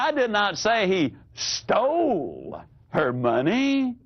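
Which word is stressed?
stole. The stress is on the word stole.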